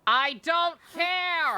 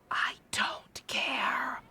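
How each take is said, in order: First: Slow, high, loud yell; drawn-out exasperated shout; shouted brush-off. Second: Slow breathy whispered brush-off; lazy whispered dismissal; mock whisper. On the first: Real, not acted. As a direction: bellow it out, fed up. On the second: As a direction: breathe it out slowly, not bothering. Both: Streamer dismisses game line.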